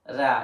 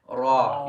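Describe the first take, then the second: First: The syllable is said light, with an empty mouth. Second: The syllable is said heavy, with a full mouth. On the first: The speaker calls it wrong. "You don't say ra" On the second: The speaker calls it right. "it's always full mouth"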